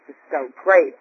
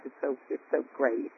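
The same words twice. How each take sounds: First: It's so great shouted out, much louder; loud joyful burst. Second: Said in the usual way. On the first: Real, not acted. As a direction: blurt great out in delight. Repeats it louder.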